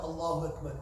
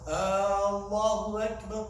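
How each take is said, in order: First: The first vowel is kept short. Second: The first vowel is stretched out long. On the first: It states that God is the greatest. The speaker calls it right. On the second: It asks whether God is the greatest. The speaker calls it wrong.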